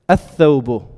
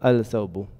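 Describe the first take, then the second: First: The l merges into a doubled th. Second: The l is pronounced before th. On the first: The speaker calls it right. "How do I say the th- the garment?" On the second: The speaker calls it wrong. "I don't say al-thawbu"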